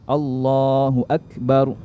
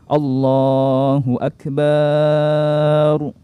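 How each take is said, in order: First: The vowel after the b is short. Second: The vowel after the b is drawn out. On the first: God is the greatest. The speaker calls it right. "jadi akbar itu alif, kaf, ba dan ra" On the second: God is a drum. The speaker calls it wrong. "jangan memanjangkan huruf ba-nya sehingga terbaca seperti ini"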